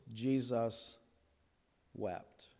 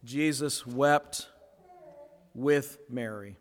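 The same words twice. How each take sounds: First: The words "Jesus" and "wept" dropped very soft and low, long pause between; hushed reverent reading. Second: "Jesus wept" drawn out slowly with a rising "wept"; slow emphasis on wept. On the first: Pastor to congregation, "Jesus ... wept." hushed and slow. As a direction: let "Jesus ... wept." fall to a near hush. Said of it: "Two little words". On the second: Pastor restating the verse to the congregation, "wept" slow and rising. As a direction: lean on "wept", slow and lifted. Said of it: "What we see here is empathy in action". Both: Shown as a demonstration.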